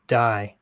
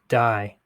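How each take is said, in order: First: One syllable, the 'did' is dropped. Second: The same.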